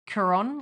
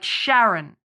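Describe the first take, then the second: First: The name begins with a K sound. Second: The name begins with an SH sound. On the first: The speaker calls it right. "it's C H, but it's K. That's how you pronounce it" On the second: The speaker calls it wrong. "Winston says Sharon, like Sharon"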